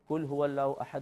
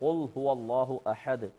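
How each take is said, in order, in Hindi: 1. पहला हर्फ़ पतला और हल्का है। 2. पहला हर्फ़ गहरा और भारी है। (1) "कोई बारीक उससे पढ़ दे" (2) "मोटे क़ौफ से क़ुल"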